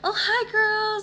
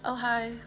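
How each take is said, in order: First: The greeting sounds warm and energetic. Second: The greeting sounds flat and unwelcoming.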